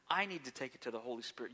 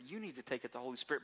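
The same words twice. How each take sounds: First: "I" leaned on, the rest rushed and quick; stress on I. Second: "You" leaned on, the rest rushed and fast; stress on YOU. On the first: Preacher owns the lesson himself, quick with stress on I. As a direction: hit "I" first, then run through the line fast. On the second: Preacher turns the lesson on the congregation, quick with stress on You. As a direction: point "You" at the listener, then rattle the rest. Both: Shown as a demonstration. Shifting stress onto the person.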